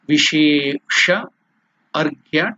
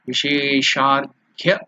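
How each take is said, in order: First: The two words are said as separate words. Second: The two words merge into one joined word.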